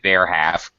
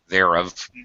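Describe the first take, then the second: First: Both words are said fully and separately. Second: The two words merge into one contracted syllable. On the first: The speaker calls it wrong. "don't say there have" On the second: The speaker calls it right. "we pronounce it thereof"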